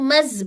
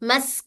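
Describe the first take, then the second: First: The syllable ends in a voiced z sound. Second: The syllable ends in a voiceless s sound. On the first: The speaker calls it wrong. "मस को मज बोल रहे हैं" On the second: The speaker calls it right. "मस को मज बोल रहे हैं"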